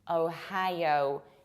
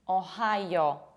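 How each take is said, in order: First: The first O glides, not square. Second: The first O is flat and square. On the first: The speaker calls it right. "in fact, we pronounce it like Ohio" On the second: The speaker calls it wrong. "with very square O"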